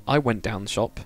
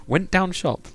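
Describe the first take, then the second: First: Said in the usual way. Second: High-pitched northern English imitation; exaggerated Preston dialect; Preston accent. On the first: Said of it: "Like, not". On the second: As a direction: put on a lilting Preston accent. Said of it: "You would say".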